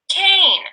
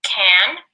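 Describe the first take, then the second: First: Cane rising high with a long A; cane lifted high, then falling; long vowel stressed. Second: Said in the usual way. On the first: Shown as a demonstration. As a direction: stretch the A in cane. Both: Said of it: "read those words together".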